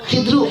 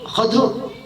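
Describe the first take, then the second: First: First vowel i, no vowel between d and r. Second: First vowel a, no vowel between d and r. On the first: "mal kasr kho" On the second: "wa iskan dot"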